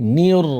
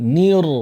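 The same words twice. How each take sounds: No difference in how they are said.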